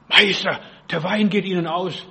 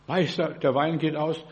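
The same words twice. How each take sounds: First: Mild urgent call, loud on the first word; calling out to the master. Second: Said in the usual way. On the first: Acted. Mary telling Jesus at the Cana wedding the wine is gone, calling out. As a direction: call out "Meister", then ease off. Voices Mary's alarmed call.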